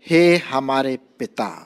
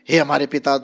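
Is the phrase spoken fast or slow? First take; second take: slow; fast. First: The phrase is spoken slowly and deliberately. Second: The phrase is spoken quickly and rushed. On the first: The prayer is said with thought and meaning. The speaker calls it right. "सोच के धीरे धीरे" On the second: The prayer is rattled off without thought. The speaker calls it wrong. "जल्दी जल्दी मत करें"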